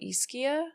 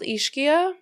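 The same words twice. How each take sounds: First: The name is said with an Italian-style pronunciation. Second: The name is said with an English-style pronunciation. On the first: The speaker calls it right. "I think the locals call it" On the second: The speaker calls it wrong. "I don't think I say it right"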